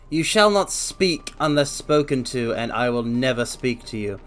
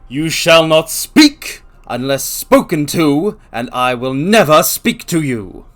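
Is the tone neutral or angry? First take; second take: neutral; angry. First: It is read in a plain, neutral tone. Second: It is said in a mean, angry tone.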